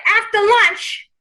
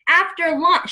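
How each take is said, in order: First: Drawn-out, raised New York grandma; New York accent. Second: Said in the usual way. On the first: Acted. Medium voicing the client's grandmother, New York accent. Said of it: "she's saying it with the New York accent". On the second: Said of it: "she's like".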